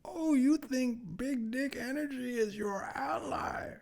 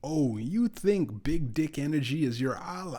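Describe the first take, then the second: First: It is said in an impression of Bane. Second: It is said in the speaker's normal voice.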